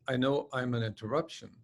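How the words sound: It is said in a flat tone.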